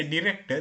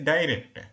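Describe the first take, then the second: First: Director with a short i, dih-rector; Sri Lankan pronunciation. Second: Director with a long eye sound, dye-rector; American pronunciation. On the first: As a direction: director starting with a plain short i sound. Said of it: "We say director". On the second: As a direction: director opening on the diphthong ai. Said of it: "they say director". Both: Shown as a demonstration.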